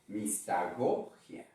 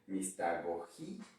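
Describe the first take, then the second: First: The stress falls on the syllable 'go'. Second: The stress falls on the syllable 'gi'.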